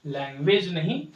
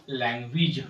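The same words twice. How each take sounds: First: लैंग्वेज ending in -wej; the wrong way, लैंग्वेज as lang-wej; लैंग्वेज with a full e at the end; wrong language. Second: लैंग्वेज ending in -wij; लैंग्वेज with a short i at the end; correct language. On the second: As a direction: say लैंग्वेज as lang-gwij. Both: Shown as a demonstration. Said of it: "अब हम इसे पढ़ेंगे लैंग्वेज".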